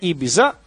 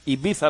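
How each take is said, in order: First: The consonant before the last vowel is 'z'. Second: The consonant before the last vowel is 'th'. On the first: This is how people here usually say it. "Εμείς εδώ τη λέμε Ιμπίζα" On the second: This is the correct original pronunciation. "Ιμπίθα λέγεται σωστά"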